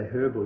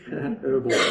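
First: The word begins with a pronounced h sound. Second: The word begins with a silent h.

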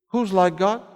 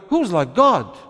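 First: It rises at the end like a question. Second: It falls at the end like an exclamation.

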